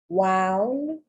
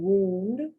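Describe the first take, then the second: First: The vowel sounds like 'ow' in 'out'. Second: The vowel sounds like 'oo' in 'moon'.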